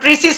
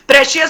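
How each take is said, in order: First: The middle consonant is an s sound. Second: The middle consonant is an sh sound. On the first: The speaker calls it wrong. "प्रीसियस नहीं होता" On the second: The speaker calls it right. "प्रेशियस होता है, जरा अपना उच्चारण सही कीजिएगा"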